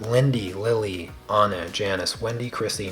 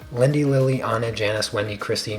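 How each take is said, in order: First: The names are said at a slower pace. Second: The names are said at a faster pace.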